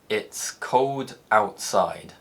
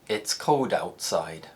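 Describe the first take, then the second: First: Slow, with a clear gap between the words. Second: Natural speed, with the words linked together. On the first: "When I speak slowly, there's a clear gap between cold and outside" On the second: "as I speak naturally"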